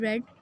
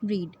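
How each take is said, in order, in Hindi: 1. स्वर एक छोटी 'e' ध्वनि है। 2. स्वर एक लंबी 'ee' ध्वनि है।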